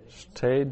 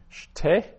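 First: Said in the usual way. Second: Shte said higher with a rising lift; emphatic citation. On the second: Shown as a demonstration. Teacher modelling Shte for Hebrew students, high rising citation. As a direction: lift Shte up as the word to repeat. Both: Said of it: "teacher drills Hebrew vocabulary".

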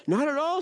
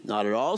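First: High-pitched storybook echo; rabbit's agreement. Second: Low-pitched storybook echo; squirrel's agreement. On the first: Rabbit chimes in after squirrel, high-pitched agreement. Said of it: "said Rabbit". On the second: Squirrel backs up hedgehog's objection, low-pitched agreement. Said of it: "said Squirrel". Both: A narrator's reading.

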